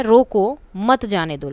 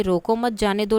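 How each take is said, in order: First: "रोको", pause, then a stressed "मत जाने दो"; रोको के बाद विराम. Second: "रोको मत" joined, then "जाने दो"; group it as "रोको मत, जाने दो"; मत के बाद अल्प विराम. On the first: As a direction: break after रोको and lean on मत. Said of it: "अब रोको के बाद लगा दिया". ("रोको" के बाद रुककर "मत" पर ज़ोर) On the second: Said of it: "रोको मत के बाद अल्प विराम". ("रोको मत" एक साथ, फिर "जाने दो") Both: Shown as a demonstration.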